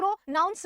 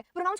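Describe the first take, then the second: First: pronounce broken into its syllables with small gaps; split into syllables. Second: Said in the usual way. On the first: Shown as a demonstration. Teacher showing how a word divides into syllables, pronounce said in separate pieces. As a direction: say pronounce piece by piece, pro-noun-s. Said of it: "तीन syllable में divided". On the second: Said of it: "अगर हम लोग बोलते हैं".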